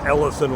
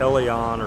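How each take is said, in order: First: The name ends with an 'ison' sound. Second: The name ends with an 'ion' sound. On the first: This is how the name looks when read from spelling. The speaker calls it wrong. "I think it's Ellison when I see it, but that's not how, I, how he pronounces it" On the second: This is how the owner of the name says it. The speaker calls it right. "It's Elion or something like that"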